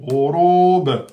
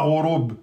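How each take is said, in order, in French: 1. Le b final rebondit avec un court relâchement. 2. Le b final est tenu sans rebond. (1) "vous faites le rebond" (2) "c'est pas rorob"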